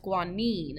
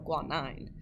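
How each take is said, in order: First: The last syllable does not sound like 'nine'. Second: The last syllable sounds like 'nine'. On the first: The speaker calls it right. "So now it's guanine" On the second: The speaker calls it wrong. "instead of guanine"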